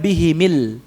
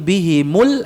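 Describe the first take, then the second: First: The m is followed by an i vowel. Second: The m is followed by a u vowel. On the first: The speaker calls it wrong. "Bukan bihimil" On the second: The speaker calls it right. "tapi bihimul asbab"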